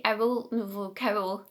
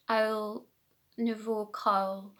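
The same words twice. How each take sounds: First: "Owl Nouveau cowl" with Scottish "cowl" like "kerrol"; own Scottish pronunciation. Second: "Owl Nouveau cowl" slowly, "cowl" as one open syllable; most people's pronunciation. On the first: Knitter demonstrating her own way of saying "Owl Nouveau cowl", Scottish pronunciation. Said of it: "so I say". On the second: Knitter imitating how most people say "Owl Nouveau cowl", careful standard pronunciation. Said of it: "how most people probably say it". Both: Shown as a demonstration.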